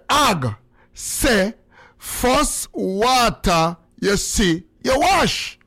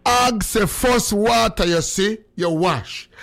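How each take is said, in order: First: Retold angry outburst. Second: Slow, measured repeat, dropping at the end; repeat on request. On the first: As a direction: stretch it out, then burst out mock-angry at the end. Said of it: "it's like anger". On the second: Shown as a demonstration. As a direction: spell out the saying slowly without the outburst. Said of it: "Repeat it again".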